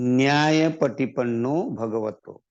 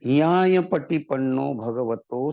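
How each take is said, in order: First: The first word starts with an 'nya' sound. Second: The first word starts with a plain 'ya' sound. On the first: This is the Hindi form of the word. "बहुत से लोग संघ वंदना में न्याय पटिपन्नो भगवतो कहते हैं" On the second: This is the Pali form of the word. "पाली शब्द है"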